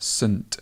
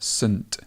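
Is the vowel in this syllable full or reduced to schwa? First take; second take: schwa; schwa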